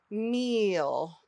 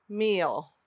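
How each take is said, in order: First: MEAL with a long stretched ee; drawn-out long E. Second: Said in the usual way. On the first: Shown as a demonstration. Teacher models meal for pupils, drawn out. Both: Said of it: "Say it with me".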